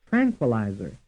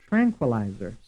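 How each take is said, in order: The two takes are said the same way.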